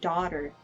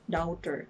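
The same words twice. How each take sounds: First: The syllables are pronounced smoothly together. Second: Each syllable is pronounced separately and evenly. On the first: The speaker calls it right. "it should be daughter" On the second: The speaker calls it wrong. "per syllable yung pag-pronounce nila"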